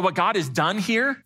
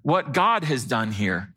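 First: Said in the usual way. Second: GOD stressed, the phrase slow and lower; emphatic repeat. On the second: Real, not acted. Pastor crediting God for the church's turnaround, slow stress on GOD. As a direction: say it slowly and low, leaning on GOD. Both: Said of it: "let me emphasize that again".

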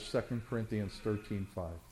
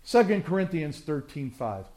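First: Quieter, lower restatement; gently repeated reference; softer repeat. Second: Said in the usual way. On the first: Real, not acted.

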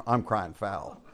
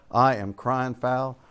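First: Said in the usual way. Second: "I am crying foul" slowed, each word separate; emphatic protest. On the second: Retold or imitated. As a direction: draw out "I am" in mock protest. Emphatic repeat of retold protest.

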